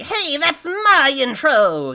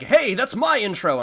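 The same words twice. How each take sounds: First: It is said in a silly, put-on voice. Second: It is said in a normal, natural voice. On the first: The speaker calls it right. "just make it sound stupid" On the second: The speaker calls it wrong. "I couldn't get it to sound good"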